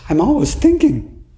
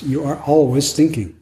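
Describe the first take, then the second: First: High, plaintive "I'm always thinking"; complaining student. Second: Said in the usual way. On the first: Retold or imitated. Retreat student to teacher, a high plaintive complaint. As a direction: whine it like a frustrated student, much higher. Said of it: "some people told me during this retreat". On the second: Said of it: "And I say".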